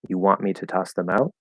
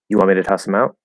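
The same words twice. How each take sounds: First: It is said slowly with every sound clear. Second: It is said fast with sounds dropped and blended. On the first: "that's the enunciated version" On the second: "fast and kind of lazy"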